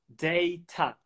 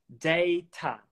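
No difference in how they are said.

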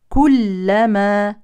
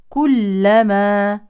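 The two takes are said the same way.

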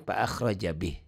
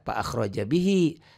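First: The final word ends cut short on h. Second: The final word ends with a long vowel. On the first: The reading stops at this word. "kalau dihentikan" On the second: The reading continues into the next words. "tetap panjang kalau dibaca"

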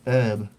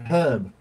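First: It is said the American way, without the h. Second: It is said the British way, with the h.

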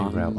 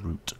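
First: The vowel sounds like the one in 'out'. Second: The vowel sounds like the one in 'boot'. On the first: This is how the other group says it. The speaker calls it wrong. "Why do you guys say route" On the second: This is the speaker's own way of saying it. The speaker calls it right. "it's obviously root"

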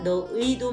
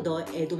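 First: The last syllable has the diphthong 'ui'. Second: The last syllable has the plain vowel 'e'. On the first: "너의도 맞고" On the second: "너애도 맞습니다"

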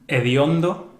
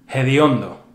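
First: The initial h is silent. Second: The initial h is breathy and aspirated. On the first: "In standard Spanish, an H at the beginning of the word is silent" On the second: "here they become rather hediondo"

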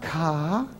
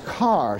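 First: It is said Boston-style, without the final r. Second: It is said Southern-style, with a clear final r.

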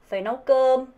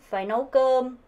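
No difference in how they are said.

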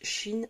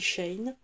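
First: It sounds like the French word Chine. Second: It does not sound like the word Chine. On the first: This is how many people in France say it. "en France, beaucoup de gens disent Chine" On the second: This is the speaker's own way of saying it. "mais moi, je dis Shein"

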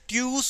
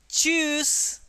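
First: The word begins with a plain 't' sound. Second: The word begins with a 'ch' sound. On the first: The speaker calls it wrong. "don't say it tuse or anything" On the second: The speaker calls it right. "It is silent, so it will give the sound of choose"

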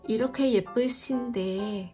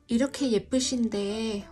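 First: The s in 신 is a plain light s. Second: The s in 신 sounds like sh. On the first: The speaker calls it wrong. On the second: The speaker calls it right.

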